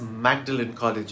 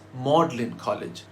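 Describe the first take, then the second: First: The name is sounded out as it is spelled. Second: The name is said in a shortened form. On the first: The speaker calls it wrong. "it should be pronounced as" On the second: The speaker calls it right. "Magdalen was pronounced Magdalen, so it's"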